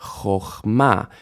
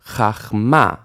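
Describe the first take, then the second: First: CHOCHMA with an oh in the first syllable, stress on MA; O vowel. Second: CHACHMA with an ah in the first syllable, stress on MA; A vowel, final stress. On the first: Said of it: "It actually says". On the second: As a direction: say chachma with AH, landing on MA. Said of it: "final stress". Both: Shown as a demonstration.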